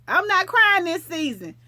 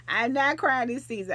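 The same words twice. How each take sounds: First: Louder, higher declaration of I'm not crying this season; firm vow. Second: Said in the usual way. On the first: Real, not acted. Vowing to viewers, a loud defiant declaration. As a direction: announce it loud and proud.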